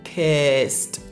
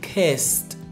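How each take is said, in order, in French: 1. La terminaison se prononce avec un son T. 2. La terminaison se prononce avec un son T.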